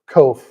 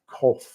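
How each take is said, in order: First: The name is said the English way, rhyming with loaf. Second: The name is said with a German pronunciation. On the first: This is how the family says it locally. "we pronounce it Kof, rhymes with loaf" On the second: This is how people in Germany say it. "in Germany, if you go there, they say our last name like Kof"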